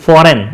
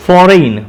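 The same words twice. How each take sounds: First: ફોરેન with a short last vowel, like 'fo-ren'; ફોરેન the common way, ending in plain 'en'; everyday pronunciation. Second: ફોરેન with 'ei' sounded as 'ay', like 'fo-rein'; ફોરેન with a long gliding last vowel; spelling-based pronunciation. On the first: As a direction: say ફોરેન as 'FOR-en', no glide. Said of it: "આપણે ફોરેન કહેતા હોય છે". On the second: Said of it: "એ તરીકે ઉચ્ચાર કરવો". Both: Shown as a demonstration.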